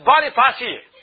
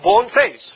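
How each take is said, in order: First: It is said as one word, Boniface. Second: It is said as two words, bone and face. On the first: It is said the way the name is actually pronounced. The speaker calls it right. "But it's pronounced as Boniface" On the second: It is read the way it is spelled. The speaker calls it wrong. "if you read the name, it's spelled with a bone face"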